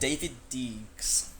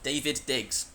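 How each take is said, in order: First: Every vowel is said as a long 'ee'. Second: The surname has a short 'i' vowel. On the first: The speaker calls it wrong. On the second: The speaker calls it right.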